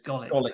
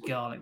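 First: The name sounds like go-lick, with no r sound. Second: The name sounds like the word garlic. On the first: This is how the name is said in the film. The speaker calls it right. "but it's Golick, apparently" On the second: This is how the speaker had assumed the name was said. The speaker calls it wrong. "I thought it was Garlick"

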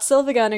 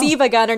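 First: The first word has an L sound. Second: The first word has no L sound. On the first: The speaker calls it wrong. "not Silva Gunner" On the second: The speaker calls it right. "Siva Gunner, not Silva Gunner"

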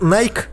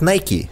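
First: It is said with a British pronunciation. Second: It is said with an American pronunciation.

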